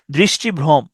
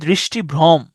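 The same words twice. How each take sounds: The two takes are said the same way.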